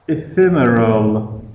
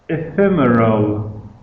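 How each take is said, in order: Both takes have the same delivery.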